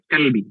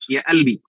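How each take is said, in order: First: The word begins with a k sound. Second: The word begins with a glottal stop. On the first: "huruf qaf itu dibaca dengan huruf kaf ya" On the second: "di Mesir huruf qaf itu dibaca dengan hamzah"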